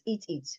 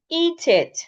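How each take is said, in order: First: The first word has a short vowel. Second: The first word has a long vowel. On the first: The speaker calls it wrong. "That's wrong" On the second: The speaker calls it right. "It's meant to be eat it"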